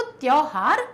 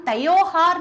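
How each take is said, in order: First: त्योहार said as "tyohaar", त and यो joined; correct form. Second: त्योहार said as "teohaar", vowel between त and यो; the misspoken त्योहार, split into two syllables; wrong form. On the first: Teacher giving the right way to say it. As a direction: clean single-glide त्योहार. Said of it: "तो त्योहार है". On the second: Teacher showing how we do not say it, stretched apart. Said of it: "हम त्योहार नहीं बोलते". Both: Shown as a demonstration.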